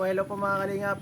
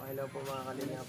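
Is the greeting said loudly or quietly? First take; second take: loudly; quietly. First: The greeting is said loudly and with power. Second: The greeting is said quietly and weakly. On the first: The speaker calls it right. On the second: The speaker calls it wrong. "Ang mahina ata yun"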